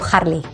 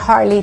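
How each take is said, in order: First: It is said with a Spanish pronunciation. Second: It is said with an English pronunciation. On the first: "turns into Harley" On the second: "the Harley turns into"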